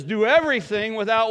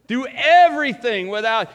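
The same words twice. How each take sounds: First: Call-and-response setup, trailing off on "without"; prompting pause. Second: "everything" hit hard and loud; stress on everything. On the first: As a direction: leave the sentence hanging for the congregation. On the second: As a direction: lean on "everything" in "Do everything without". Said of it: "it doesn't say do some things". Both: Shown as a demonstration.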